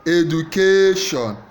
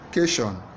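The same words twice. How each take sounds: First: The stress is on the third syllable. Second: The stress is on the first syllable. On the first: "Third syllable" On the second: "First syllable"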